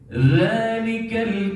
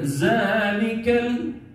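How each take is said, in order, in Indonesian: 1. Konsonan pertama adalah bunyi 'th' yang lembut. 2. Konsonan pertama adalah bunyi 'z' yang bergetar. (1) "Huruf zal, zali zubal, bukan za"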